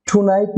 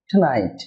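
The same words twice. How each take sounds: First: টুনাইট with a clear U, "too-night"; full "too". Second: টুনাইট as "t'NIGHT", lower and falling; reduced first vowel. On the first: Teacher shows viewers the form to avoid, full "too". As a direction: say টুনাইট with an unreduced first syllable. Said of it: "টুনাইট না হবে". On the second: Teacher models the corrected word for viewers, reduced "t'night". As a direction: swallow the U of টুনাইট, stress "night". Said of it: "হয়ে হবে". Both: Shown as a demonstration.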